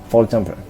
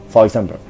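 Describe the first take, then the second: No difference in how they are said.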